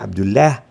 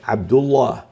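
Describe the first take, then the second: First: The L in Allah sounds light and thin. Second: The L in Allah sounds heavy and dark. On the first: The speaker calls it wrong. "لا نقول عبد الله" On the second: The speaker calls it right. "بل عبد الله"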